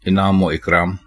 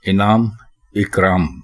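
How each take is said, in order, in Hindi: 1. एक जोड़ने वाली 'o' आवाज़ दोनों शब्दों को जोड़ती है। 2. दोनों शब्द बिना किसी जोड़ने वाली आवाज़ के एक के बाद एक आते हैं। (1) "अक्सर इसी तरह बोलते हैं लोग" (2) "इस तरह बोलेंगे तो ये दुरुस्त होगा"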